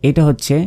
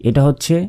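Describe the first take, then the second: The two takes are said the same way.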